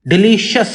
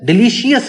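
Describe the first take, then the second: First: The ending is split into two separate syllables. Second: The same.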